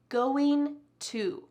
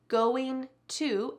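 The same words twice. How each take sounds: The two takes are said the same way.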